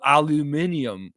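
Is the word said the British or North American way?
British. It is said with the British pronunciation. The speaker calls it wrong. "The people in Britain pronounce everything crazy"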